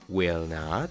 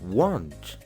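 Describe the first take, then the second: First: It is said as two full words. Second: It is said as one contracted word. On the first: "En vez de decir" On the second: "mejor di"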